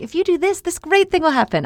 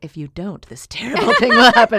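First: High, bright sing-song promise; cheery reward pitch. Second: Half-laughing mock doom warning; ominous warning. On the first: Retold or imitated. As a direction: sell it like a cheerful prize. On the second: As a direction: play up the threat, laughing. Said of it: "I'm like".

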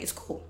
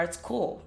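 First: A breathy unvoiced whisper, softer; whispered aside. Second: Said in the usual way. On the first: Shown as a demonstration. Repeating it to herself in a soft whisper. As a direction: drop it to a whisper for yourself. Echoing her own it's cool.

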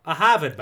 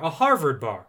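First: Put-on Boston-accented "Harvard bar", both r's dropped. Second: Said in the usual way.

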